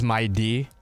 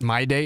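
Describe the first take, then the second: First: The second syllable sounds like 'dee'. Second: The second syllable sounds like 'day'. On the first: The speaker calls it right. "it's My D" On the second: The speaker calls it wrong. "It's not My Day"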